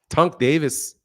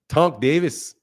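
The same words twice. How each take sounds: The two takes are said the same way.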